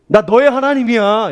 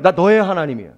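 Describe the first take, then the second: First: Higher and louder, declaring; voice of God. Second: Said in the usual way. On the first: Acted. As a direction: speak as God claiming his child. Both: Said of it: "이런 말이에요".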